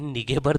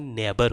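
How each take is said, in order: First: It has a hard g sound in the middle. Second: It has no g sound in the middle. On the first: The speaker calls it wrong. "यह निगेबर नहीं होता" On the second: The speaker calls it right. "नेबर होता है"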